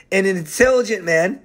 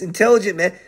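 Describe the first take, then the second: First: Said in the usual way. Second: "intelligent" pointed out with emphasis; stress on intelligent. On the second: Shown as a demonstration. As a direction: lean on "intelligent" to highlight it. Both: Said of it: "Listen to this".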